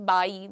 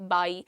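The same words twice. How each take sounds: First: It starts with teeth on the lip, v-like. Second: It starts with teeth on the lip, v-like.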